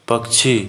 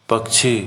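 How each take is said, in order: No difference in how they are said.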